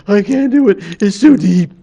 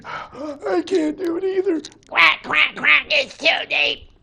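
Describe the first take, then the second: First: High, loud heron winded from diving; out of breath. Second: High-pitched quacking duck, winded; defeated duck. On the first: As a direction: gasp it out, beaten by the dive. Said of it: "and he comes back". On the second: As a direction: quack it out after a failed dive. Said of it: "So duck says". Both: Acted.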